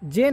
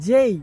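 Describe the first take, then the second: First: The letter is said with a pure 'e' vowel. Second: The letter is said with an 'ei' glide. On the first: The speaker calls it wrong. "জে না" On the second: The speaker calls it right. "না জেই"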